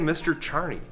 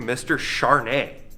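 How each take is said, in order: First: The name ends with an 'ee' sound. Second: The name ends with an 'ay' sound. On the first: The speaker calls it wrong. "They always say Mister Charney" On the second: The speaker calls it right. "but my name is actually Mister Charnay"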